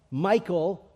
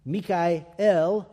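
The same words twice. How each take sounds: First: Said in the usual way. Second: Mikael said mee-kah-el, Hebrew style; Hebrew pronunciation. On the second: Shown as a demonstration. Teaching the church the Hebrew name, Mikael as mee-kah-el. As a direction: give Mikael as mee-kah-el, three syllables. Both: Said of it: "Greek transliteration of the Hebrew name".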